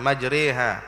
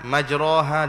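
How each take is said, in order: First: The vowel after r is tilted toward e. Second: The vowel after r is an open a. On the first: The speaker calls it right. "dibaca dengan kaedah imalah" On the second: The speaker calls it wrong. "dia tak baca"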